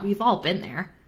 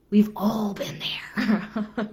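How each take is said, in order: First: Said in the usual way. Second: Slow, voiceless whisper. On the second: Shown as a demonstration. Coach whispering a shared confession to viewers. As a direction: breathe it slowly as a knowing aside. Repeated, second take whispered.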